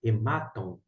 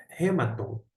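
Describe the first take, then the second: First: "hematon" stressed on the middle syllable MA; correct Erasmian pronunciation. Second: "rematon" with the stress on the first syllable; first syllable of "rematon" leaned on; initial mistaken pronunciation. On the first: Shown as a demonstration. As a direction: say "hematon" as he-MA-ton. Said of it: "a pronúncia correta dentro da pronúncia erasmiana". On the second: Real, not acted. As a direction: say "rematon" as RE-maton, front-stressed. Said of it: "desculpa aí agora a pronúncia inicial".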